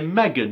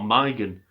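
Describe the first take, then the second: First: The name is said with a British pronunciation. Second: The name is said with an American pronunciation. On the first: This is how people in the UK say it. The speaker calls it right. "we say Megan" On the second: This is how the name is said in America. The speaker calls it wrong. "not Megan"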